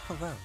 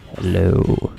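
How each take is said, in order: First: The voice is natural, with no effect applied. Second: The voice is run through a voice-changing effect. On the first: "This is my normal voice" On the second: "Let's hope that this actually does voice changing"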